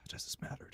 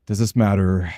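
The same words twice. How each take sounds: First: Breathy whispered question to himself. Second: Said in the usual way. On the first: Real, not acted. Gamer whispering a question to himself. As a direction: whisper it, thinking it over. Muttering to himself over game.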